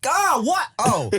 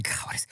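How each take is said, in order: First: High-pitched exasperated outburst, played up; pissed-off phone answer. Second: Exasperated answer under the breath; muttered false start. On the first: Reenacting answering a call mid-task, irritated high outburst. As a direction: snap it like an interrupted person answering a call. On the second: Retold or imitated. Reenacting answering an interrupting phone call, muttered exasperation. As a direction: start the retold phone answer very softly, then abandon it. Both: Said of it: "I think I answered the phone like this".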